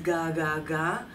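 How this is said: The syllables run together on one continuous line. The speaker calls it wrong. "on one line like ah"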